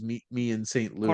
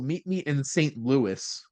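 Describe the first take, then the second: First: The final name rhymes with 'me'. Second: The final name does not rhyme with 'me'. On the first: The speaker calls it right. "because it doesn't rhyme" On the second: The speaker calls it wrong. "that just doesn't have the same kind of ring"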